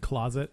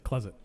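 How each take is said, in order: First: Every syllable is pronounced fully. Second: A syllable is swallowed and shortened. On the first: "instead of saying" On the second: "they swallow up syllables"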